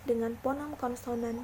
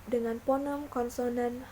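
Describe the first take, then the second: No difference in how they are said.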